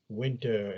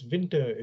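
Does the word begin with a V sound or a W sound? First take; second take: W sound; V sound. First: The word begins with a W sound. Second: The word begins with a V sound. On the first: The speaker calls it right. "Instead of saying winter" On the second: The speaker calls it wrong. "we pronounce it with a V"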